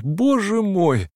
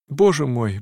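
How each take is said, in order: First: Drawn-out anguish. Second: Said in the usual way. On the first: A narrator's reading.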